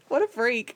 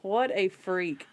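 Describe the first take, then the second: First: Quick, slightly raised amused jab; amused exclamation. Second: Slow, deliberate, word-by-word verdict; drawn-out, deliberate amused judgment; slow emphatic repeat. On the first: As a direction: toss it off through amusement. First take of repeated exclamation. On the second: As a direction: space out WHAT, A, FREAK. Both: Real, not acted.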